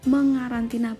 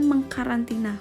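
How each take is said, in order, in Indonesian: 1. Bunyi k setelah awalan dihilangkan. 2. Bunyi k setelah awalan dipertahankan. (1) "akhirnya dibaca mengarantina" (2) "bukan mengkarantina"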